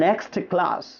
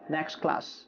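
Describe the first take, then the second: First: The t at the end of next is pronounced. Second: The t at the end of next is dropped. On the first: The speaker calls it wrong. "আপনি তাহলে আর বলছেন না next class" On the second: The speaker calls it right. "Simply next class"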